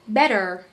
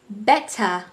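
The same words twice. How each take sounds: First: The R at the end is pronounced. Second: The R at the end is silent. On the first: "for the American accent, I say better. You can hear the R sound" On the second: "in the better I just mentioned for British, the R has not been pronounced"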